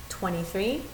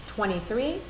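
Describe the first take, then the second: The two takes are said the same way.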